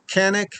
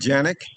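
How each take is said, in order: First: The name begins with a hard K sound. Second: The name begins with a J sound.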